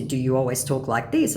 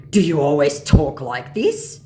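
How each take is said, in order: First: Said in the usual way. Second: Loud, slow scammer question; questioning mock scammer. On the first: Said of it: "And in response to". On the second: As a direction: draw it out, rising at the end.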